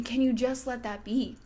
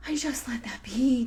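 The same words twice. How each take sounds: First: Said in the usual way. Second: Whisper. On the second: Shown as a demonstration. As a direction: whisper it gently, letting it be.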